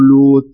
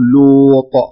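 First: The final letter is weak, almost like a t. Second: The final letter is released with a strong bounce. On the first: The speaker calls it wrong. "ما تقول لوط، ضعيفة" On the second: The speaker calls it right. "فتقول لوط"

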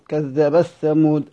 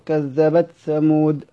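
First: The t merges fully into the following th. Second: The t is pronounced clearly before the th. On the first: "الإدغام" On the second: "الإظهار"

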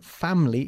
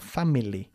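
First: The middle vowel is dropped, giving two syllables. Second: All three syllables are pronounced fully. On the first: The speaker calls it right. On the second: The speaker calls it wrong. "y no family"

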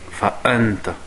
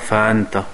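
First: The glottal stop before the a is clear. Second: The glottal stop before the a is weak. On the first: The speaker calls it right. "il faut qu'on l'entende le hamza" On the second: The speaker calls it wrong. "tu ne dis pas"

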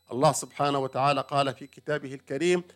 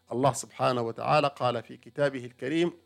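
Both takes have the same delivery.

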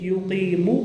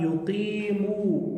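First: The final vowel is cut short. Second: The final vowel is held long. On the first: The speaker calls it wrong. "nicht Yuqimu" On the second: The speaker calls it right. "Was wird aber lange gezwungen? Das heißt dann, wir sagen"

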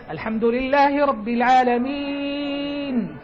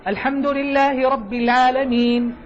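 First: The vowel before the final sound is held long. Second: The vowel before the final sound is kept short. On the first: "فتمد أربع حركات" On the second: "فلا تمد، هذا قصر"

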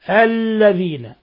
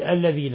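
First: The l sound is doubled and held. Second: The l sound is light and rushed. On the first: The speaker calls it right. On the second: The speaker calls it wrong.

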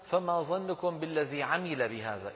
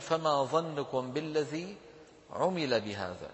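First: The verb is said in the active form, amila. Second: The verb is said in the passive form, umila. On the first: The person acted on the Quran. The speaker calls it wrong. "أما إن قلنا" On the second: Something was done to the person. The speaker calls it right. "فصواب نطقه"

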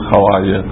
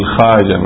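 First: It is said with a w sound after kh. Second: It is said with no w sound after kh. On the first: The speaker calls it wrong. "ما يقول الخواجة" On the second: The speaker calls it right. "يقولون الخاجة"

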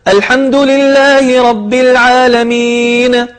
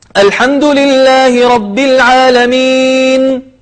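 First: Closing consonants get an echoing bounce. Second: Closing consonants are said plainly without bounce. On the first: The speaker calls it wrong. "بعض الناس يخطئ فيقلقل الحروف" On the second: The speaker calls it right. "فالصحيح أن يقول"

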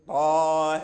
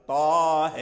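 First: The final vowel lies between 'a' and 'ee'. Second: The same.

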